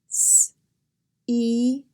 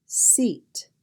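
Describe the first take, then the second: First: S-eat in separate sounds: sss, ee, t; sounded out. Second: Said in the usual way. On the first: Shown as a demonstration. Teacher drilling the S sound, "S-eat" sound by sound. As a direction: break "S-eat" into its sounds with gaps between. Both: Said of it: "Here are some words practicing the S sound".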